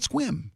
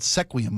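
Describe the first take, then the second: First: The name is said as one syllable. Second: The name is said with several syllables. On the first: The speaker lives in the area. The speaker calls it right. "It's called Squim" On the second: The speaker does not know the area. The speaker calls it wrong. "I heard a guy call it Sequium once"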